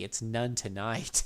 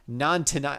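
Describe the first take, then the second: First: "none tonight" said slowly, none rising like the English word none; corrected name. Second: "non tonight" said haltingly as non, like Nanuki; stumbled name. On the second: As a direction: trip over "non tonight" after several false starts. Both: Shown as a demonstration. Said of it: "I kept calling him Nanuki".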